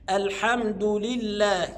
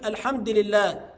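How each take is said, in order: First: Slow, joined "الحمد" with a full du; damma on dal. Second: "الحمد" run into "لله" without u; vowelless dal. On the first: Shown as a demonstration. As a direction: link "الحمد" to "لله" through a clear u. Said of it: "لا، الصحيح". (نطق "الحمد" بضم الدال موصولة) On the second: Retold or imitated. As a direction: drop the u ending "الحمد". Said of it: "ما يقفش عليها يسكنها". (تسكين دال "الحمد" خطأً)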